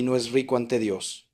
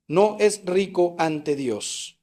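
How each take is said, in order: First: Said in the usual way. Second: "No es rico ante Dios" very slow, each word weighed; slow, deliberate stress all through "No es rico ante Dios"; emphatic repetition. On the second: Shown as a demonstration. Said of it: "Mediten esta última frase".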